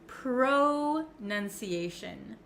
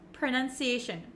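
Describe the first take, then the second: First: The first syllable has a full 'oh' vowel. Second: The first syllable has a short 'uh' vowel. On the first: The speaker calls it wrong. "It looks like you could pronounce it pro" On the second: The speaker calls it right. "it's actually kind of pronounced like a U, like an uh"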